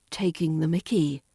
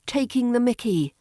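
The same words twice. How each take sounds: First: Lower take. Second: Said in the usual way. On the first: Shown as a demonstration. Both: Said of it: "Number six".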